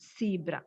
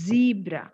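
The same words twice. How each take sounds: First: The word begins with a hissing s sound. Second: The word begins with a buzzing z sound. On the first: The speaker calls it wrong. "It is not zebra" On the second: The speaker calls it right. "It is zebra"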